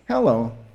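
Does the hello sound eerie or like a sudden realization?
realization. It sounds like a sudden realization.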